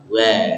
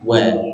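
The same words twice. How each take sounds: First: The w is made with lax, barely rounded lips. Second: The w is made with strongly rounded lips. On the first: The speaker calls it wrong. "jangan terlalu lemas, kurang dimonyongkan bibirnya" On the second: The speaker calls it right. "harus dimonyongkan dulu"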